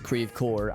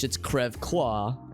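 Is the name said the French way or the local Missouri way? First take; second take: Missouri; French. First: It is pronounced the local Missouri way. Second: It is pronounced the French way. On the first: The speaker calls it wrong. "we go out of our way to pronounce it as" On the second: The speaker calls it right. "Now in French"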